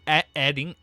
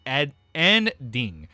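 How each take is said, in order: First: Said in the usual way. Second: Ending spelled out slowly, syllable by syllable; careful ending. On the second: Shown as a demonstration.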